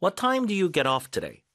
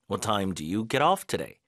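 First: "time" raised and stressed, slow. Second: Lower, "off" carries the stress, slow; second slow take leaning on "off". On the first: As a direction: ask it slowly with a lift on "time". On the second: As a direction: shift the weight to "off". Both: Shown as a demonstration. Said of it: "get off라고 합니다".

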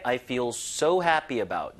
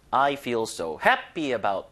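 First: "I feel so happy about" with "so" punched and the rest falling away; stress on so. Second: "I feel so happy about" with the weight on "happy", falling; stress on happy. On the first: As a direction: hit "so" harder, let "happy about" drop. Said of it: "여기다 조금 더 힘을 주는 게". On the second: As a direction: lean on "happy", not on "so". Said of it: "강세를 이제 어디다 주느냐가". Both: Shown as a demonstration.

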